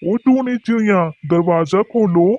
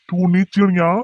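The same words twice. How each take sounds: First: Calling out. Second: Said in the usual way. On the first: Acted. Crow calling at the door.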